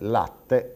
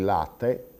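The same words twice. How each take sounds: First: The middle t is long and reinforced. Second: The middle t is short, not lengthened. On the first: "per eh, dire latte" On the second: "ho bevuto il latte"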